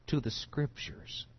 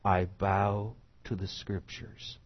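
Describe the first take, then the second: First: "to" singled out in a higher, whispered voice; whispered emphasis on "to"; stress on "to". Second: Said in the usual way. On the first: Shown as a demonstration. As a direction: lean hard on "to" before "the Scriptures". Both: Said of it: "And I want to emphasize".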